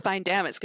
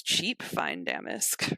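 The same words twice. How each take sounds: First: Said in the usual way. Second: Slow, breathy, sneering devaluation; sneering whisper. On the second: Retold or imitated. Spider fence sneering at stolen damask, slow whisper. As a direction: hiss it out slowly, scoffing at the goods.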